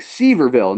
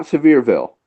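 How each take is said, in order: First: "Sevierville" said SEE-ver-vil; spelling pronunciation. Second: "Sevierville" said suh-VEER-vil; local pronunciation. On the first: Showing the mistaken reading, "Sevierville" as SEE-ver-vil. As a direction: stress the first syllable of "Sevierville", as SEE-ver. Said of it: "It is spelled Sevierville". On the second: Correcting the newcomer's reading, "Sevierville" as suh-VEER-vil. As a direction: stress the second syllable of "Sevierville", as suh-VEER. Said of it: "So you think Sevierville". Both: Shown as a demonstration.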